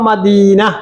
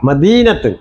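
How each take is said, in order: First: The word ends in a bare 'a' sound. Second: The word ends with a full 'atun' ending. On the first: The reader stops at this word. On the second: The reader continues without stopping.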